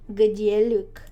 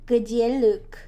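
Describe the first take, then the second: No difference in how they are said.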